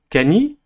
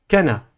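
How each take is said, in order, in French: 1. Le n est suivi d'une voyelle i. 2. Le n est suivi d'une voyelle a. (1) "ni Kani" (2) "ni Kana"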